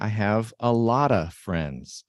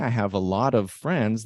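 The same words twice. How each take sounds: First: The word 'of' is reduced to a short 'uh'. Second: The word 'of' is pronounced fully, with its v. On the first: The speaker calls it right. "They'll say" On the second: The speaker calls it wrong. "most native speakers won't say"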